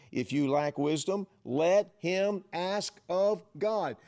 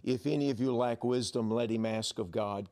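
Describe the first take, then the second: First: "let him ask of God" drawn out slow and high, each word weighted; slow emphatic reading. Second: Said in the usual way. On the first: Shown as a demonstration. Pastor rereading verse five to the church, slow and emphatic. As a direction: lean into "ask of God" like a proclamation. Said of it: "What does he say there in verse five". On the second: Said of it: "Look at verse five".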